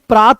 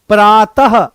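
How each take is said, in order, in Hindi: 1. इस शब्द के अंत में श्वास-युक्त 'ह' ध्वनि नहीं है। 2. इस शब्द के अंत में श्वास-युक्त 'ह' ध्वनि है। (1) "अगर इसको पढ़ोगे तो ये प्रात पढ़ा जाएगा" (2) "जैसे ही इसमें विसर्ग आ जाएगा लाला, तो ये प्रातः हो जाएगा"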